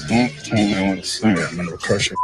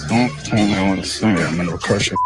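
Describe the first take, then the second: Both takes have the same delivery.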